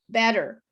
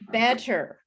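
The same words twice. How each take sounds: First: The word is said in a relaxed, fluent way. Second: The word is said in a careful, deliberate way.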